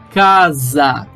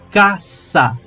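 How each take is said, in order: First: The middle consonant is a buzzing z sound. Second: The middle consonant is a hissing s sound. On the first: This is the Portuguese way of saying it. The speaker calls it wrong. "eu não falo casa" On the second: This is the Spanish way of saying it. The speaker calls it right. "eu falo caça"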